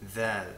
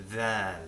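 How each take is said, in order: First: It begins with a th sound. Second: The same.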